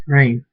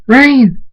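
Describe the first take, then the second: First: Said in the usual way. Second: High, very loud cry; screamed name. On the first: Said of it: "Draconet says". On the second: A narrator's reading. Friend screams for Rain in the tornado, loud cry. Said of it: "Murdash screams".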